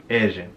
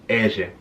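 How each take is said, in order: Both takes have the same delivery.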